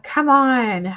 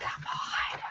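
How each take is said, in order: First: Louder, higher, exasperated plea; retold protest, pushed out louder. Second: Hushed, whispered exasperation; retold protest under the breath; whispered disbelief. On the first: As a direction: come on, seriously?. Retells own dismay at wallpaper prices. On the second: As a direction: whisper it, appalled at the price. Retells own dismay at the price.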